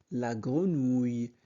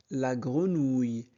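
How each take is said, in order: Both takes have the same delivery.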